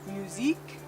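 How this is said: It is said with a French accent. "sort of a French accent"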